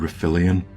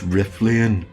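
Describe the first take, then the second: First: The name has an extra middle vowel, four syllables. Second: The name has no middle vowel, three syllables. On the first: The speaker calls it wrong. "which I've been pronouncing wrong" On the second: The speaker calls it right. "There's no middle I"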